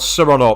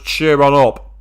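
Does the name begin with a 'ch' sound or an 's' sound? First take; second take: s; ch. First: The name begins with an 's' sound. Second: The name begins with a 'ch' sound. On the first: "or sir on up" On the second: "I'm pretty sure it's meant to be pronounced as cheer on up"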